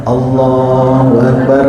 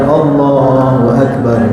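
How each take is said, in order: No difference in how they are said.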